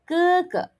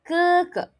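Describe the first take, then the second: First: Each syllable starts with an unaspirated k-like sound. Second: The same.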